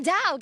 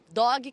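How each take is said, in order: First: It is said with a Southern American accent. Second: It is said with a Brazilian Portuguese accent. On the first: This is how a local woman said it. "eles têm um sotaque de inglês que é bem impressionante" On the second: This is how Brazilians adapt the word. "a gente fala dog"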